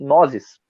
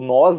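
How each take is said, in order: First: The pronoun is said sounding like 'nozes'. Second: The pronoun is said as plain 'nós'. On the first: "aqui no Brasil dizem nozes. Isso é meio estranho" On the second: "que é o nós"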